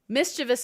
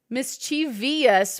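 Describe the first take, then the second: First: No extra vowel is heard after the v. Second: An extra 'ee' vowel is heard after the v. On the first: The speaker calls it right. "is the only way to say it" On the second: The speaker calls it wrong. "would mean that there was an I after the V"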